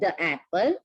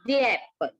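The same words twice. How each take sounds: First: 'The' has a short, weak uh vowel. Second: 'The' has a long ee vowel. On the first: The speaker calls it wrong. "It's not the apple" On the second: The speaker calls it right. "you have to pronounce it as double E"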